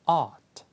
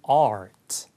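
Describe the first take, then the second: First: No r sound; the vowel is held longer. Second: The r after the vowel is clearly pronounced. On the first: "호주나 영국 영어는" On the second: "북미 영어로는"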